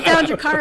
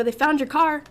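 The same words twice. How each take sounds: First: Much louder and higher, laughing through it; repeating it to mom, louder, half laughing; emphatic repeat. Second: Higher and louder, half laughing; telling mom in excited disbelief; excited retelling. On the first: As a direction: hammer the news home. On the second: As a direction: blurt it out, amazed. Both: Retold or imitated.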